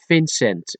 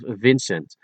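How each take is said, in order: First: The name begins with an F sound. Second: The name begins with a V sound. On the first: "people turn the V into an F" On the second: "instead of Vincent"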